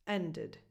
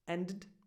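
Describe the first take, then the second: First: A small vowel separates the two D sounds. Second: The vowel before the final D is dropped. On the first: The speaker calls it right. "You just need something in between" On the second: The speaker calls it wrong. "Even if you tried to drop that vowel sound completely"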